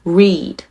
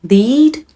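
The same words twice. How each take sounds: First: 'read' with an English R, settled tune; R sound. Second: 'Lead' with a clear L, high and rising; L sound. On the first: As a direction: say 'read' starting on R, tongue touching nothing. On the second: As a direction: say 'Lead' on a crisp L, lifting upward. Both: Shown as a demonstration. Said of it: "LとRから始まっていますので".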